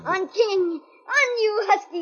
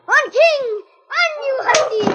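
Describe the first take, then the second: First: It is said in a louder voice. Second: It is shouted at full volume.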